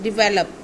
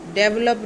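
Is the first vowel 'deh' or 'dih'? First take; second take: dih; deh. First: The first syllable sounds like 'dih'. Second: The first syllable sounds like 'deh'. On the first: The speaker calls it right. "This is डिवेलप" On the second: The speaker calls it wrong. "डेवलप नहीं"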